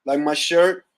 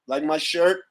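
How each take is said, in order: Both takes have the same delivery.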